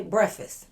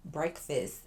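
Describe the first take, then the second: First: "Breakfast" tossed off in the speaker's accent, letters dropped; casual accented pronunciation. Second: "breakfast" said slowly and carefully; careful pronunciation. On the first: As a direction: say "Breakfast" quickly, not every letter sounded. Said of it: "don't got time to pronounce every". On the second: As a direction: correct yourself to a deliberate, fully sounded "breakfast". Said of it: "make sure I say stuff right". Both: Shown as a demonstration.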